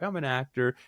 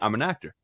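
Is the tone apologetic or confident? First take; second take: apologetic; confident. First: It sounds hesitant and apologetic. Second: It sounds firm and self-assured. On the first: The speaker does not fully own the role. The speaker calls it wrong. "forgiving tone, like I'm an actor" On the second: The speaker fully owns the role. The speaker calls it right. "instead of saying I'm an actor"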